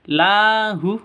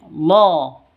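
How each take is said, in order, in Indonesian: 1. Vokal setelah L terdengar seperti 'a' yang tipis. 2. Vokal setelah L terdengar seperti 'o' yang penuh. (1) "Jadi tidak dibaca lahu" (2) "tapi lo, seperti itu"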